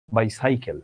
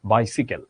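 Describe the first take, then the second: First: "বাইসাইকেল" as "bai-sai-kel"; "bai-saikel" for "বাইসাইকেল"; wrong pronunciation. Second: "বাইসিকেল" as "bai-si-kel"; short "si" in the middle of "বাইসিকেল"; low "bai-sikel" for "বাইসিকেল"; correct pronunciation. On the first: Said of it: "এটা তো বাইসাইকেল না". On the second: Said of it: "এটা হচ্ছে". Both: Shown as a demonstration.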